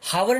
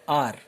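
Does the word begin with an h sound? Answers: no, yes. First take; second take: yes; no. First: The word starts with an h sound. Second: The word starts with a vowel sound. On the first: The speaker calls it wrong. "हावर नहीं बोलते हम इसको" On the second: The speaker calls it right. "एच क्या रहता है यहां पे, silent रहता है"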